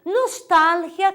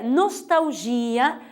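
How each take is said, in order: First: Nostalgia said slowly, nos-TAL-hia; Spanish stress. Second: Nostalgia said slowly, nos-tau-ZHI-a; Portuguese stress. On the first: Teacher listing Spanish words, Nostalgia stressed on TAL. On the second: Teacher giving the Portuguese counterpart, nostalgia stressed on GI. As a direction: lean on GI in nostalgia. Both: Shown as a demonstration. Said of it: "difere a sílaba tônica".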